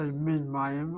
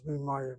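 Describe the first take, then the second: First: The word min is said in full before mayim. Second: Min is contracted into one word with mayim. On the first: The speaker calls it wrong. "I don't say min mayim" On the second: The speaker calls it right. "I use contract the mem, voice with a chirik"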